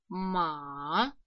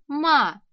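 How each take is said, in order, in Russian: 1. Тон опускается вниз, а потом снова поднимается. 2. Тон резко падает, звучит капризно. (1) "низ галочки, у вас горло опускается, когда голос уходит вниз" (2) "Еще раз капризно"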